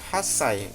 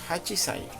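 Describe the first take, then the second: First: It has a doubled 's' with no 'chi'. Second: It has a full 'chi' before 'sai'. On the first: The speaker calls it right. "menggunakan hasai" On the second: The speaker calls it wrong. "bukan hachisai"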